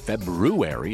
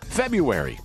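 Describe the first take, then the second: First: The first r sound is clearly pronounced. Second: The first r sound is left out.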